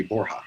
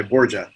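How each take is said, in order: First: "Borja" as BOR-hah; "Borja" with the j breathed as h; proper pronunciation. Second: "Borgia" as BOR-juh; "Borgia" with an English j sound; Anglicized pronunciation. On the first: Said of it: "the proper pronunciation is actually". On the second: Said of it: "they went by Borgia initially". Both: Shown as a demonstration.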